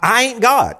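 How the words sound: It is said in a hillbilly Tennessee accent.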